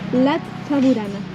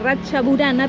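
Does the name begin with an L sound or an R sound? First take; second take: L; R. First: The name begins with an L sound. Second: The name begins with an R sound.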